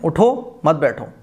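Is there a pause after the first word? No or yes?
yes. There is a short pause after the first word. The listener is told to get up, not sit. "उठो के बाद थोड़ा सा रुक जाते हैं"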